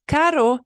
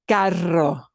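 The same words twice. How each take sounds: First: Caro with a light single tap on the r. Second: Carro with a long strong rolled r. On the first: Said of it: "gets a little trill". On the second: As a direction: let the tongue flap hard on the rr in carro. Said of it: "really have to let the air flow over that tongue and let the tongue flap more". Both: Shown as a demonstration.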